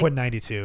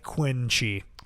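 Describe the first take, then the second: First: The second part is said as the number ninety-two. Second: The second part is said as one syllable, 'chi'. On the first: The speaker calls it right. "It's when he was born" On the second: The speaker calls it wrong. "I thought it was like Quinn Chi"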